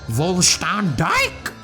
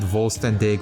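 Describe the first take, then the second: First: It is said in an exaggerated German accent. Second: It is said plainly, without an exaggerated accent.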